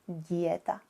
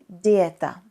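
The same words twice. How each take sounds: First: The consonant before the i is softened. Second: The consonant before the i stays hard. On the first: The speaker calls it wrong. "instead of" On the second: The speaker calls it right. "instead of"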